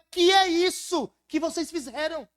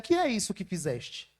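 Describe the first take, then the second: First: It is said as a stern rebuke. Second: It is said calmly and gently.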